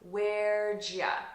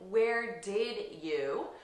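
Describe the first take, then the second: First: The d and y blend into a j sound. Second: Each word is said fully and separately. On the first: The speaker calls it right. "with a J sound" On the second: The speaker calls it wrong. "I'm not saying"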